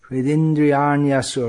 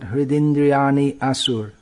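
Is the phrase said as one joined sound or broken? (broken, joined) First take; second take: joined; broken. First: The y glides straight into the next sound. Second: An i sound and a break come first. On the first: The speaker calls it right. "One flowing sound, not stopping in the middle" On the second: The speaker calls it wrong. "not Hridindriyani asur"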